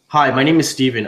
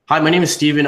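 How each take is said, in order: First: It is said slowly. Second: It is said fast.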